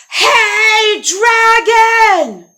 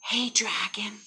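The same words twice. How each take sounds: First: High, drawn-out holler; full shout. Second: Hushed, breath-light hail; tentative call. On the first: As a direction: bellow it right into the sleeper's ear. She yells into his ear. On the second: Tiptoed up to sleeping dragon. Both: Acted.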